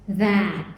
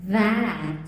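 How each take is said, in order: No difference in how they are said.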